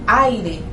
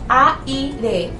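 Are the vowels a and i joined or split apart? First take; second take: joined; split. First: The a and i are joined in one syllable. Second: The a and i are split into separate syllables. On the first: The speaker calls it right. "ustedes dicen aire" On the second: The speaker calls it wrong. "usted no dice aire"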